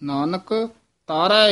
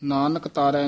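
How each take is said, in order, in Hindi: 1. पहले शब्द के बाद रुकावट है। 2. दोनों शब्द बिना रुके एक साथ बोले जाते हैं। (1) "ਇਥੇ ਯਮਕ ਲਾਉਣੀ ਹੈ" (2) "ਨਹੀਂ"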